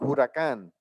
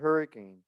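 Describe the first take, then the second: First: The name does not sound like English hurricane. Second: The name sounds like the English word hurricane. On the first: The speaker calls it right. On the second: The speaker calls it wrong.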